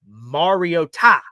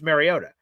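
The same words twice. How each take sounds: First: The T sound is strongly emphasized. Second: The T sound is soft and unemphasized. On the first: This is the pronunciation the name's owner uses. The speaker calls it right. "but apparently it's Mariota" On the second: This is the familiar pronunciation. The speaker calls it wrong. "I've known him as Marcus Mariota"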